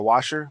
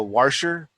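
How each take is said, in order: First: Said in the usual way. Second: Washer with an intrusive r, "warsher"; local pronunciation. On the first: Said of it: "like a washer". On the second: Retold or imitated. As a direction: imitate locals putting an r into washer. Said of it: "they always pronounce".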